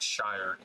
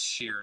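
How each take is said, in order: First: The vowel is a long eye sound. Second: The vowel is a long ee sound. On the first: The speaker calls it wrong. "not shire" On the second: The speaker calls it right. "I know it's sheer"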